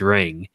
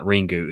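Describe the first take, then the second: First: The word ends on the consonant, no vowel. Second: The word ends with an added final u vowel. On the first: The speaker calls it right. "You don't pronounce the U" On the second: The speaker calls it wrong. "not Ringu"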